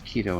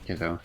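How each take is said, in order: First: The first vowel is long, like 'key'. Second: The first vowel is short, like 'kid'. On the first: The speaker calls it right. "his name's Kido" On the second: The speaker calls it wrong. "and not Kiddo"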